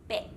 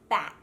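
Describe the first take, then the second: First: The vowel is flatter, like an E. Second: The vowel is open and wide. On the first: The speaker calls it wrong. "they might say beck" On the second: The speaker calls it right. "the short A sound"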